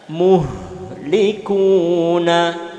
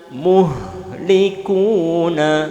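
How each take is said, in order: Both takes have the same delivery.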